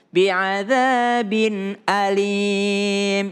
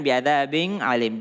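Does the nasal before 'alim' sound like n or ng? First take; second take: n; ng. First: The nasal before alim sounds like n. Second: The nasal before alim sounds like ng. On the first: The speaker calls it right. "Tapi in" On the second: The speaker calls it wrong. "Jangan bi'adzabin alim. Jangan ing"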